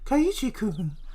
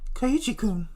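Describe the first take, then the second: First: It is said in a breathy, seductive voice. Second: It is said in a deep, low-pitched voice. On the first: "the sexual seductive voice where it's like" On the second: "the low one. So that's basically"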